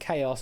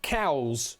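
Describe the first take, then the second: First: The word sounds like two syllables, kay-oss. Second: The word sounds like one syllable, cows. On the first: The speaker calls it right. "No, it's chaos, I'm afraid" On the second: The speaker calls it wrong. "a Polish friend of mine once said when they were reading that word for the first time, cows"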